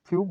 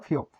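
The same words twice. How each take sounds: First: ফিউপ with a u before the final p; first variant pronunciation. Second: ফিওপ with an o before the final p; second variant pronunciation. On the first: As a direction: say ফিউপ with an u sound. (ফিউপ, উ ধ্বনি দিয়ে উচ্চারণ) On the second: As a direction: say ফিওপ with an o sound. (ফিওপ, ও ধ্বনি দিয়ে উচ্চারণ) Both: Shown as a demonstration. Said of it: "আপনারা যেটা চাই এটা করেন".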